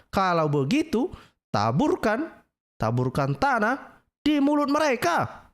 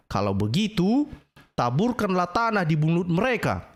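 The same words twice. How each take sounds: First: Higher, slow, drawn-out mock recital; mock solemn reading. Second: Said in the usual way. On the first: Preacher re-reading the hadith to mock it, slow and high. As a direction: read it out again, milking each word. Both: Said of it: "Ya, ini coba".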